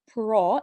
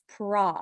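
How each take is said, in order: First: The vowel is a rounded 'oh' sound. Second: The vowel is an open 'ah' sound. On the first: The speaker calls it wrong. "it's not pro" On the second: The speaker calls it right. "it's pra"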